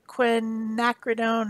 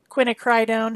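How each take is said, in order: First: Quinacridone said as kwi-NAK-ri-dohn; alternative pronunciation. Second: Quinacridone said as kwin-a-CRY-dohn; alternative pronunciation. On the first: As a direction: say quinacridone with a short "nack" in the middle. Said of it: "however you say it. Different people say it different ways". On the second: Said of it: "Different people say it different ways". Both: Shown as a demonstration.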